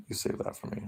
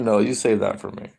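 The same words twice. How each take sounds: First: A creepy little whispered tease; whispered mock-intimate aside to the chat; teasing whisper. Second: Said in the usual way.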